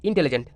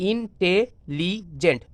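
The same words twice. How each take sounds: First: Said in the usual way. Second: intelligent very slow, pausing between syllables; broken into syllables. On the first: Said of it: "যেমন আমি যদি বানান করি". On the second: Shown as a demonstration. Teacher showing students how to spell, intelligent syllable by syllable. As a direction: break intelligent into ইন, টে, লি, gent. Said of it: "দেখো কীভাবে বানান করবো".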